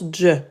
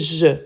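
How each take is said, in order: First: The consonant is a 'dj' sound with a stop. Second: The consonant is a smooth 'zh' sound, no stop. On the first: This is how it is said in Quran recitation. "Dans le Coran, on prononce dj" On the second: This is an acceptable alternative pronunciation. "Mais on peut le prononcer je"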